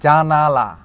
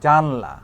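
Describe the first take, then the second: First: The word is said with three syllables. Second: The word is said with two syllables. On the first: "জানালা, না বলে" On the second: "এই আটাকে skip করে আমি বলে দিলাম জানলা"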